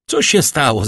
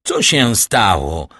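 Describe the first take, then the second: First: Quick question, slightly raised voice; question from downstairs. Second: Slow, stretched alarmed call; called-out question. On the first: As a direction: call up a brisk question from below. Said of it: "zapytał z dołu". (szybkie pytanie rzucone z dołu) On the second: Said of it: "zawołał Villefort". (przeciągłe, zaniepokojone zawołanie) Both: A narrator's reading.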